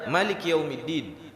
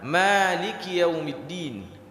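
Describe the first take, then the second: First: The first vowel of Maliki is kept short. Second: The first vowel of Maliki is drawn out long. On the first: This follows another accepted reading tradition. "Ada yang tidak membaca panjang" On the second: This follows the reading tradition the speaker uses. "Qiraah kita memanjangkan di surah Al-Fatihah"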